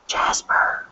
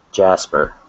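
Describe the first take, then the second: First: Hushed whispered name; whispering. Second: Said in the usual way. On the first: Pretend. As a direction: whisper it like a spy. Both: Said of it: "imagine being a secret agent".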